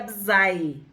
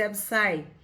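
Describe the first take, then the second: First: The middle consonant sounds like a z. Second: The middle consonant sounds like an s. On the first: This follows the usual reading of the letters. "em português seria Absai, porque o S está no meio de duas vogais" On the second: This follows the name's original language. "como essa palavra é hebraica ... pode ser Absai"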